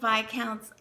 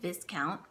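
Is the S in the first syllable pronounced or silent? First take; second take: silent; pronounced. First: The S in the first syllable is silent. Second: The S in the first syllable is pronounced. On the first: The speaker calls it right. "you don't pronounce the S" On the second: The speaker calls it wrong. "not knowing how to pronounce it and saying it viscount"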